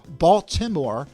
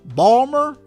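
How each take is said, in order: First: The T sound in the middle is pronounced. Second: The T sound in the middle is dropped. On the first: The speaker calls it wrong. "It's never Baltimore" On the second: The speaker calls it right. "Nobody pronounces the T in the city's name"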